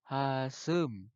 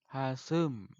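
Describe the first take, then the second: No difference in how they are said.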